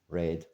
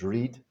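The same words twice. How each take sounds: First: The vowel is short, as in 'red'. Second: The vowel is long, as in 'reed'. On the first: It is the past-tense form. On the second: It is the present-tense form.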